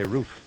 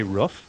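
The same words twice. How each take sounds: First: Roof with the vowel of boot; "roof" with a long oo. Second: Roof with the vowel of foot; "roof" with the short vowel of book. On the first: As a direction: say "roof" rhyming with proof. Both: Shown as a demonstration. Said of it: "Do you say roof".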